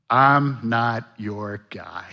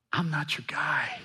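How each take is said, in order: First: Very slow, dragged-out protest; slow excuse. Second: Whispered, breathy repeat. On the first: Pastor voicing Moses refusing, slowly and reluctantly. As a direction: drag it out reluctantly. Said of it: "Fear response number five". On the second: Pastor voicing Moses whispering his refusal to God. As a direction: drop to a whisper. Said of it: "That's what he's saying". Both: Retold or imitated.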